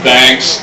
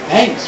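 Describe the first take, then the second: First: It sounds mocking and insincere. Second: It sounds warm and genuinely grateful. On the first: The speaker does not appreciate it at all. "Sarcasm on the end" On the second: The speaker appreciates something. "thank you as in you appreciate something"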